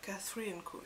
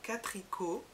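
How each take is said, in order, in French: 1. Il se prononce comme le prénom Catherine suivi de Co. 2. Il se prononce comme un seul mot court, Catrico. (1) "au début, je le prononçais comme ça" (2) "c'est un jeu de mots"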